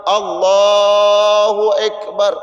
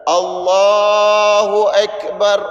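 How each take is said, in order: No difference in how they are said.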